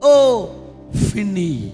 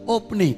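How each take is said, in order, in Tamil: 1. நடுவில் உள்ள மெய் எழுத்து ஒரு f ஒலி. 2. நடுவில் உள்ள மெய் எழுத்து ஒரு சாதாரண p ஒலி.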